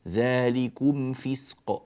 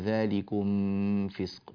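First: The m is pronounced clearly before the f. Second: The m is hidden and blended into the f. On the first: The speaker calls it right. "لا ما فيش إخفاء هنا" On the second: The speaker calls it wrong. "بعض الناس يقرأها"

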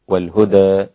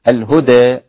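First: The final vowel is between a and e. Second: The final vowel leans strongly toward e. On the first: "ثم التقليل" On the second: "هكذا الإمالة"

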